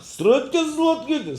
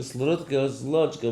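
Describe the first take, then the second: First: High, loud Ukrainian gibberish; mock yelling. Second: Milder, slightly raised gibberish; toned-down mock yelling. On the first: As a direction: imitate his uproar at full pitch. (נאכמאכן זיינע קולות) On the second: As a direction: imitate the uproar with less force. (שוואכער נאכגעמאכט געשריי) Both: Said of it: "Keule, Keule gemacht".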